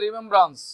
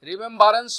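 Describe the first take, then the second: First: The word is said with three syllables. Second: The word has an extra vowel, four syllables. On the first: The speaker calls it right. "বলতে হবে রিমেম্ব্রান্স" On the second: The speaker calls it wrong. "রিমেম্বারেন্স শব্দটা ভুল"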